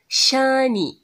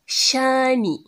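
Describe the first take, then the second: The two takes are said the same way.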